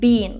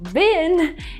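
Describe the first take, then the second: First: The vowel is long, like in 'bean'. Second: The vowel is short, like in 'bin'. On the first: "in British English, people would say bean" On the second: "but bin, is the American one"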